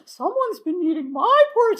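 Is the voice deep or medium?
medium. It is said in Mama Bear's medium voice.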